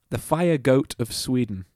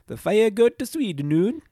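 First: It is said in the speaker's normal accent. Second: It is said in a put-on Swedish accent.

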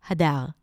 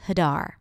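First: The name is said with Hebrew pronunciation. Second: The name is said with American English pronunciation. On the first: This is the name as pronounced in its original language. "in Hebrew, my name is pronounced Hadar" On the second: This is the name as adapted for English speakers. "I always introduce myself as Hadar"

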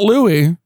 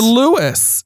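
First: The name ends with an ee sound. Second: The name ends with an s sound. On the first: The speaker calls it wrong. "Not Louie" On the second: The speaker calls it right. "To Lewis"

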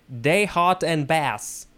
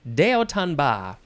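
First: It is said with English sounds, every letter voiced. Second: It is said with French sounds, final s silent. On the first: "if we wanted to pronounce this in English, American English, we would say" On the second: "it is pronounced ba"

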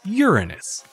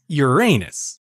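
First: It uses the scientists' pronunciation, nearer the Greek. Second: It uses the common, funny-sounding pronunciation. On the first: This is the academic way, closer to the ancient Greek. "most scientists pronounce it as Uranus" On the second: This is the everyday way most people say it. "a name that most people wind up pronouncing as Uranus, much to the delight of schoolchildren"

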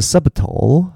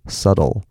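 First: The b sound is pronounced in the middle. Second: The b sound is left out entirely. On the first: The speaker calls it wrong. "它不是subtle" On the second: The speaker calls it right. "那个B 并不发音，它是subtle"

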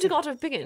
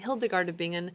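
First: The name is said in a put-on foreign accent. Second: The name is said in a plain everyday accent. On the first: "if you were going to say it with an accent, how would you say it?" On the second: "which I always want to say with an accent"

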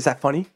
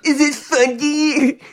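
First: It is said in a serious, confrontational tone. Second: It is said in a light, playful tone.

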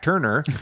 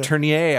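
First: The surname is said with an English pronunciation. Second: The surname is said with a French pronunciation. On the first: This is how older interviews said the name. "people in old interviews where they say that we're going to be talking to Jack Turner" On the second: This tries to match the name's French origin. "I've always said, you know, trying to sound French"

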